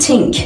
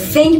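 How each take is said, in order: First: It starts with an s sound. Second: It starts with a soft th sound. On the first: The speaker calls it wrong. "بگیم think" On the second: The speaker calls it right. "به جای think"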